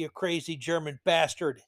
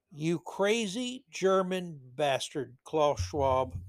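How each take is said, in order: First: Said in the usual way. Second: Slow, measured mock scolding; deliberate repeat, dropping off at the end. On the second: Real, not acted. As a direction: space out each word of the insult. Repeats the insult slowly, deliberately.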